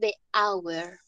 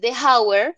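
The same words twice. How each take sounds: First: The h at the start of hour is silent. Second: The h at the start of hour is pronounced. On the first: The speaker calls it right. "sino de hour" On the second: The speaker calls it wrong. "no voy a decir de hour"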